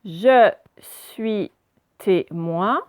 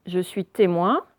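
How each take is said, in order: First: "Je suis témoin" broken into separate syllables; slow teacher's decoding of "Je suis témoin"; syllable-by-syllable reading. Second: Said in the usual way. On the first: Shown as a demonstration. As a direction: read "Je suis témoin" haltingly, a pause after each syllable. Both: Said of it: "on lit d'abord la première partie".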